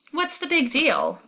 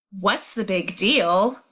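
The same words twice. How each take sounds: First: Tossed-off "What's the big deal?" with a high peak on "big", falling away; offhand. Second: Slow, every word of "What's the big deal?" leaned on in disbelief; shocked stress on the whole line. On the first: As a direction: shrug it off lightly. Brenna brushing it off. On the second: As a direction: repeat "What's the big deal?" back to her slowly, stunned. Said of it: "So he's really stressing". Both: Acted.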